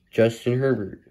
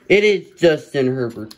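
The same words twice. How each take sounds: First: Said in the usual way. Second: Louder, higher burst of real excitement; excited announcement. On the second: Real, not acted. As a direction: call out the big pull with delight. Excited at pulling the card.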